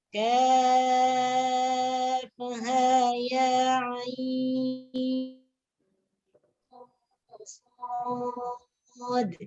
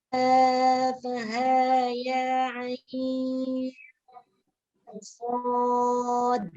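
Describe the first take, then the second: First: The vowel of ain is held longer. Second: The vowel of ain is held shorter. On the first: "yang enam. ... Itu enam harkat ainnya" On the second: "Sekarang yang empat harkat"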